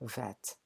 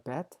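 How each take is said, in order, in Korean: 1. 단어는 V 소리로 시작합니다. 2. 단어는 B 소리로 시작합니다. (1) "두 번째는 victory, 승리할 때 V 사운드입니다" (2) "첫 번째가 B 사운드고"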